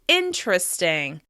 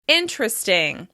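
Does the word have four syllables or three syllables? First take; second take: three; three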